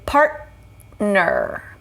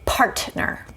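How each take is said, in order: First: The middle T is stopped, not released. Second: The middle T is fully released. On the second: "we're actually not going to say partner. You could, and that's not wrong"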